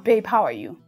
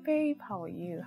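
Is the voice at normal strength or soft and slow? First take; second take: normal; soft. First: It is said at normal loudness and pace. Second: It is said much softer and slower. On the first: This is everyday talk. "if your normal voice is" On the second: This is intimate pillow talk. "you go like ten times fainter... you reduce the tempo"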